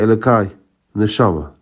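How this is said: There is a short pause between the words. God and the soul are separate. The speaker calls it right.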